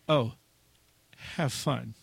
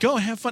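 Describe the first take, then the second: First: It is said sarcastically, with a warning tone. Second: It is said warmly and sincerely.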